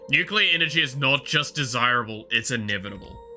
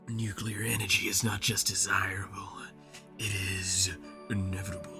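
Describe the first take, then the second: First: It is read in a plain, ordinary tone. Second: It is said in a menacing, villainous tone.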